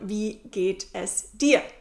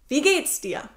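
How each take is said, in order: First: The word es is said in full. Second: The word es is reduced to s.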